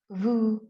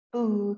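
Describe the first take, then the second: First: The word begins with a vibrating V sound. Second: The word begins with a B sound.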